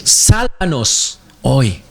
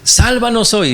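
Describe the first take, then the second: First: "Sálvanos hoy" spoken very slowly and weightily, each word drawn out; slow solemn translation. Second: "Sálvanos hoy" called out much higher, like someone in the crowd behind Jesus; pleading crowd cry. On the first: Shown as a demonstration. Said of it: "¿ustedes saben qué significa Hosana?". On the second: Retold or imitated. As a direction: cry "Sálvanos hoy" up high as a desperate follower. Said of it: "usted va detrás de Jesús".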